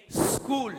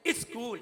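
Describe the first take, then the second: First: "स्कूल" starting on a long bare hissed s; no vowel before the s in "स्कूल"; correct pronunciation. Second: "स्कूल" with a short i in front, "iskool"; wrong pronunciation. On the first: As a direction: say "स्कूल" as sskool, straight from the s. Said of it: "बोलने का तरीका". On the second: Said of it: "नहीं, नहीं". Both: Shown as a demonstration.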